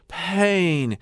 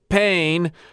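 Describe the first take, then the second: First: The word starts with a breathy sighing h. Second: The word starts cleanly with no breathy sigh. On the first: "He inserts an H in there and sort of sighs into the word" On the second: "Not pain"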